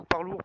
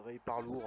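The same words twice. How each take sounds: First: Parlour said in an English accent; a clumsy English accent on Parlour, still excited and loud. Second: Ray Parlour in a slow franglais accent; a deliberately bad franglais accent on Ray Parlour. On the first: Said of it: "désolé pour mon accent dégueulasse anglais". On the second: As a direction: say Ray Parlour slowly with French sounds on English. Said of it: "avec l'accent franglais dégueulasse". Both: Shown as a demonstration.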